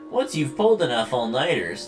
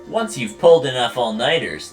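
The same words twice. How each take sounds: First: The voice is strongly nasal. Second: The voice is only slightly nasal. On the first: The speaker calls it right. "There you go" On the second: The speaker calls it wrong. "it just wasn't nasally enough"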